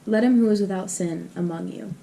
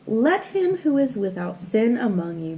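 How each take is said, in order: First: It is said in a plain, conversational voice. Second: It is read in a grand, formal voice. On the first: "that was probably less formal" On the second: "I don't read it in, like, a normal voice"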